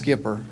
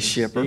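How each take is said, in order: First: The name begins with an sk sound. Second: The name begins with an sh sound. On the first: "you actually pronounced it right. It is" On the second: "most people do say shipper"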